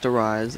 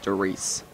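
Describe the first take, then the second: First: Wrong "Darius" with a long i ending; mispronounced Darius, "-ise" ending; Darius ending like "eyes". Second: German name Darius said as "da-REESE"; Darius ending like "geese". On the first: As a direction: say Darius to rhyme its end with "eyes". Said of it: "it's not pronounced Darius". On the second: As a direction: correct "Darius" with an "-eece" ending. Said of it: "it's pronounced Darius". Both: Shown as a demonstration.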